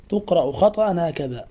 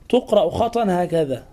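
Both takes have the same delivery.

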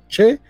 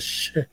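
First: The syllable begins with a 'ch' sound. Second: The syllable begins with an 'sh' sound. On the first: The speaker calls it wrong. "no che" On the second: The speaker calls it right. "sino she"

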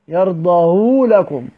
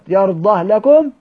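First: The final h takes a long u vowel. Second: The final h is bare, with no vowel. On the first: "الوجه الثاني لدور ابو عمرو بضم مشبعه" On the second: "الوجه الاول للدوري اللي هو الاسكان فقط"

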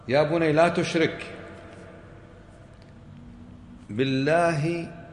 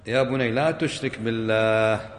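First: There is a pause right after 'la tushrik'. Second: The phrase runs on with no pause there. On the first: By God, associating partners is a great wrong. "ممكن بالوقف تعطي معنى آخر" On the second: Do not associate partners with God. "لكن الوصل"

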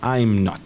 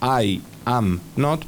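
First: The first two words are joined into one syllable. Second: Each word is said fully and separately. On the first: "podemos juntar las vocales" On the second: "Estoy diciendo I am not"

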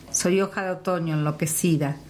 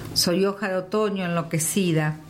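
Both takes have the same delivery.

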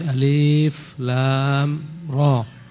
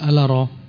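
First: Each letter is said by its full name. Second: The letters are blended into one short word. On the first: The speaker calls it right. "tapi alif lam ra" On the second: The speaker calls it wrong. "bukan dibaca ala ra"

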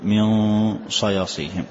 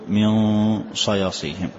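First: The n is hidden with a nasal hum. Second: The n is hidden with a nasal hum.

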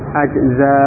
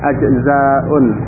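First: The word ends bare, with no vowel ending. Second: The word ends with an added '-un' ending. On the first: "Di sini disukun ya" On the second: "kalau mau diberi harokat ya dengan bomah tanwin"

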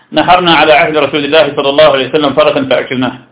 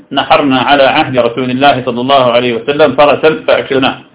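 The two takes are said the same way.

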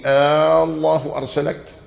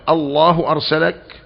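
First: The opening vowel is drawn out long. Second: The opening vowel is said short. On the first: It is a question. "المد هنا يفيد الاستفهام" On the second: It is still a question. "يجوز الاستفهام مع عدم المد"

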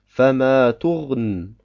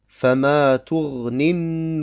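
First: The word stops abruptly without its final vowel. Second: The word runs on into the next word. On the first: "wenn wir auf dem Wort stehen bleiben, sagen wir Fama turn" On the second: "Ursprünglich heißt es Fama turni an nudur"

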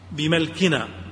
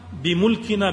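First: The m is followed by an a vowel. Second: The m is followed by a u vowel. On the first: "بفتح الميم" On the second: "بضم الميم"

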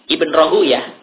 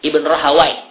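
First: The name ends with a 'yah' sound. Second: The name ends with a 'wai' sound. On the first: "beliau lebih memilih Ibnu Rahuyah" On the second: "Karena wai, ya, wai itu termasuk nama salah satu syaitan"

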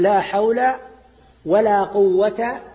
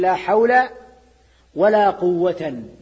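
First: The last word ends with a plain a, quwwata. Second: The last word ends with nunation, quwwatan. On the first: The second la governs its own noun. "ولا قوة مبني على الفتح" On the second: The second noun is joined to the first as its object. "على الوجه الثاني"

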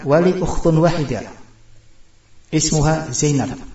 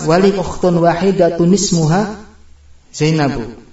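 First: The final word endings are dropped. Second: The final word endings are fully voiced. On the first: This is the standard reading when stopping. "Kalau bacaan yang bakunya ketika wakaf" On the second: This is the connected reading without a stop. "Kalau enggak bernapas"

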